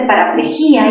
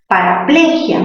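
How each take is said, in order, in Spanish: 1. El acento cae en la sílaba 'gí'. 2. El acento cae en la sílaba 'ple'. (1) "cerrada con mayor fuerza" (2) "En ple"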